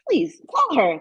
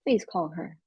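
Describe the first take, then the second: First: The request sounds impatient and pushy. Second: The request sounds formal and measured. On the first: A parent is nagging a distracted child. "Come on, now. Stop texting" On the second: A boss is giving a professional request. "formal environment"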